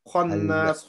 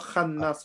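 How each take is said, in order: First: The kha is said with a full, heavy mouth. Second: The kha is said thin and light. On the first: The speaker calls it right. "Kha is full mouth" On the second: The speaker calls it wrong. "Not khannas"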